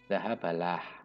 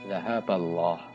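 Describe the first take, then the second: First: The L in Allah sounds light and thin. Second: The L in Allah sounds heavy and thick. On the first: The speaker calls it wrong. "Tidak boleh zahabalah, itu salah" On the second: The speaker calls it right. "maka harus dibaca tebal"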